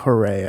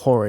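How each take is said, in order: First: It is said as two syllables, like 'hooray'. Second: It is said as one syllable, like 'hore'. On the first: The speaker calls it right. "It's like hooray" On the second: The speaker calls it wrong. "but it's not Hore"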